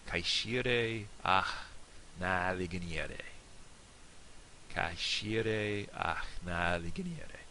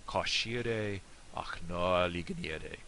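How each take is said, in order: First: Slow Irish toast in a northern accent; northern Irish dialect. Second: Slow Irish toast in a southern accent; southern Irish dialect. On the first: Teacher demonstrating the toast for learners, northern Irish dialect. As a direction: say it slowly with northern Irish vowels. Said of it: "for the northern dialect, I think it'll sound something like this". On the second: Teacher putting the toast together, southern Irish dialect. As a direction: say it slowly with open, rounded southern Irish vowels. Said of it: "The southern one". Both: Shown as a demonstration.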